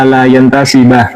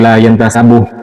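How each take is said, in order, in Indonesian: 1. Kata kerjanya berakhir dengan vokal 'a'. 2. Kata kerjanya berakhir dengan vokal 'u'. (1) "Jadi bacanya yang benar" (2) "bukan la yantasabuh"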